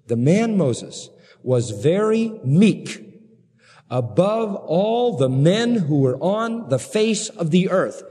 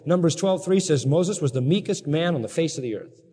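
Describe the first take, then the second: First: Slow, leaning hard on very; preacher slowing down for a key verse; slow emphatic reading. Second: Said in the usual way. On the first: Shown as a demonstration. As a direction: stretch out the verse word by word. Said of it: "get this line". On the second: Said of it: "end quote".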